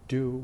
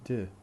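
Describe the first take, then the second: First: The word is said in its full, strong form. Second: The word is reduced to a weak, unstressed form. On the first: "instead of saying do" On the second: "we say d"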